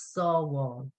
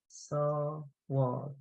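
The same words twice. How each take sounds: First: Said in the usual way. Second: SAW WALL split by a pause, softer; syllable by syllable. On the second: Shown as a demonstration. Teacher sounding out another two-syllable word, separated syllables. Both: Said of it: "another one is".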